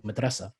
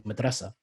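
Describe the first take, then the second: First: It is stressed in the Egyptian Arabic pattern. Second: The same.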